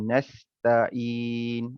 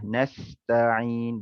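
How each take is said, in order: First: The middle consonant is a plain glottal stop. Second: The middle consonant is a throaty ain sound. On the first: The speaker calls it wrong. "bukannya huruf hamzah" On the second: The speaker calls it right. "huruf ain dibaca dengan huruf ain lah"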